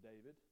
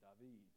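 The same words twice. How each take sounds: First: The name is said with English pronunciation. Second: The name is said with Hebrew pronunciation. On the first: "they were not saying David" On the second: "What would you say in Hebrew?"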